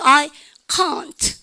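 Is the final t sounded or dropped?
sounded. The final t sound is clearly pronounced. "영국 애들은 어떻게 합니까? ... 트 발음도 다 하고"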